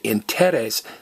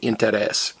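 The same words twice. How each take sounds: First: The stress is on the second-to-last syllable. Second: The stress is on the last syllable. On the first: The speaker calls it wrong. "don't stress the next to last vowel" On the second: The speaker calls it right. "stress me"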